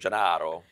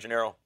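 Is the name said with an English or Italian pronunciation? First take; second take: Italian; English. First: The name is said with Italian pronunciation. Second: The name is said with English pronunciation.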